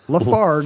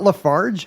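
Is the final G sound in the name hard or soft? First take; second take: hard; soft. First: The name ends with a hard G sound. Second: The name ends with a soft G sound. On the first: The speaker calls it right. "Hard G" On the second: The speaker calls it wrong. "It's not Lafarge"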